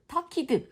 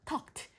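First: The ending is pronounced as an extra 'ed' syllable. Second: The ending is pronounced as a plain 't' sound. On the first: The speaker calls it wrong. "ed 발음으로 하시면 안 되고 talked, talked 아니에요" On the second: The speaker calls it right. "talked, helped 이렇게 발음하시는 게 맞습니다"

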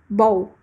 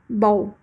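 The two takes are said the same way.

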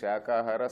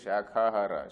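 First: The middle consonant is a plain k sound. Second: The middle consonant is a breathy kh sound. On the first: It means eating vegetables. The speaker calls it right. "Instead of saying Shakahara" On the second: It means eating branches. The speaker calls it wrong. "sometimes they say Shakahara. Shaka is wrong"

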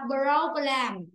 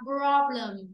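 First: The second vowel is a full e. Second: The second vowel is a reduced schwa. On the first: The speaker calls it wrong. "Không đọc là problem" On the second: The speaker calls it right. "chữ e này ta sẽ đọc là chữ ơ"

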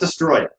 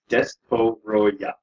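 First: The name is said with three syllables. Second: The name is said with four syllables. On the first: The speaker calls it wrong. "It's not Destroyah" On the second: The speaker calls it right. "it's Destoroyah"

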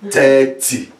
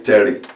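First: It is said with an African accent. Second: It is said with an American accent. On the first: "I'm saying it as we say it in Africa now" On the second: "So there are many ways here in America to say it"

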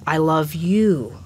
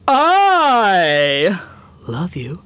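First: It is said in a natural, neutral way. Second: It is said in an arrogant way.

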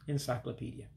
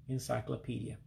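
No difference in how they are said.

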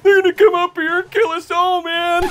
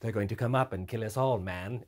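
First: It is said in his normal voice. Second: It is said in a weird precursor voice.

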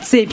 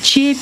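First: The word begins with a 'ts' sound. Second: The word begins with a 'ch' sound. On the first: This is the standard form. "вместо цепь" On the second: This is the local dialect form.

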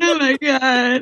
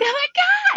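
First: It sounds grief-stricken, as if wailing. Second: It sounds joyful and excited.

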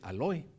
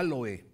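First: The stress is on the second syllable. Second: The stress is on the first syllable. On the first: "y hay quien dice aloe" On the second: "hay quien le pone el acento en la A"

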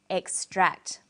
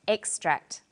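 First: The stress is on the second syllable. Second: The stress is on the first syllable. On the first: It is a verb: to pull something out. "It's on the second syllable" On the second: It is a noun: a piece taken from something. "The emphasis is now on the first syllable"

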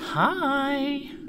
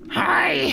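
First: The greeting is said in a saucy voice. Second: The greeting is said in a plain voice.

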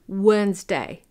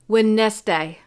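First: The D in the middle is silent. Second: The D in the middle is pronounced. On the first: The speaker calls it right. "but it's Wednesday. You don't hear the D" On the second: The speaker calls it wrong. "A lot of my international students would pronounce it Wednesday"

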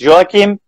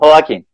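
First: The name is given its Catalan pronunciation. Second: The name is given its Spanish pronunciation. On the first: "in Catalan it's Joaquim" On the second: "in Spanish it's Joaquim"

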